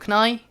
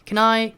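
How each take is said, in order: First: It is said quickly and lightly. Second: It is said slowly and carefully. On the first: The speaker calls it right. "빨리빨리 이야기를 해야 되니까" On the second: The speaker calls it wrong. "정말 can I 같은 그런 식으로도 안 하고"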